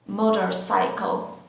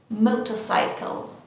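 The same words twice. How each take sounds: The two takes are said the same way.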